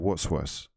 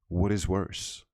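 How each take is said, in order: First: The words what and is are contracted together. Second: The words what and is are said separately. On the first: The speaker sounds like normal everyday speech. The speaker calls it right. "We say" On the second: The speaker sounds like they are reading aloud. The speaker calls it wrong. "we don't say"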